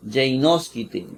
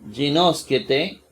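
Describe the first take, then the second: First: "Ginosquete" opening with gei, an ei diphthong; old ei spelling. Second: "Ginosquete" opening with a simple gi; gi with plain i. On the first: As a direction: say "Ginosquete" slowly, first syllable as gei. ("Ginosquete" lento, con diptongo ei al inicio) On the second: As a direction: say "Ginosquete" slowly, first vowel a pure i. ("Ginosquete" lento, con i simple en gi) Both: Shown as a demonstration. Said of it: "gi era ei".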